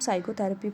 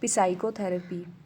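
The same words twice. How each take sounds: First: The word starts with an s sound, P silent. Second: The word starts with an audible p sound. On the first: The speaker calls it right. "क्योंकि इसको हम psychotherapy पढ़ते हैं" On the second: The speaker calls it wrong. "ना कि psychotherapy"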